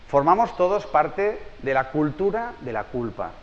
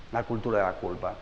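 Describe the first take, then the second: First: Slowed down, every word of "formamos todos parte de la cultura de la culpa" weighed, landing on "culpa"; slow emphatic key phrase. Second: "La cultura de la culpa" repeated much lower and softer; soft echo. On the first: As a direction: lay down the thesis word by word. Lección, frase clave enfatizada. (frase clave lenta y marcada, cada palabra de "formamos todos parte de la cultura de la culpa" pesada) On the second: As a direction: let the phrase sink in quietly. Repite la frase en eco. (eco suave y bajo de "La cultura de la culpa") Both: Shown as a demonstration.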